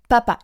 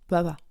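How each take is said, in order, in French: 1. Les sons p éclatent avec beaucoup de force. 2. Les sons p sont faibles, sans explosion. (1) "Quelque chose comme si ça explosait le p" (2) "c'est pas explosif"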